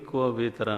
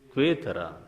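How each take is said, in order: First: It is said as four syllables, kva vetara. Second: It is said as three syllables, kvetara. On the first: The speaker calls it wrong. "मैंने कभी क्व वेतरा नहीं पढ़ा" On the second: The speaker calls it right. "मैं हमेशा पढ़ता हूं"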